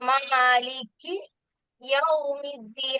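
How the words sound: There is a short pause after the first word. The speaker calls it wrong. "അവിടെ ഒന്ന് നിർത്തി പോകുന്നുണ്ട്"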